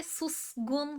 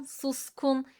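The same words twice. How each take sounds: First: Susgun slow with a soft g; wrong voiced g. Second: Suskun with a crisp k; correct hard k. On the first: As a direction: say susgun slowly with a g. (yavaş, yumuşak g ile) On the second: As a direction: say suskun with a sharp k. (sert k ile doğru) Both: Shown as a demonstration. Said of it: "S ve K yan yana geldi".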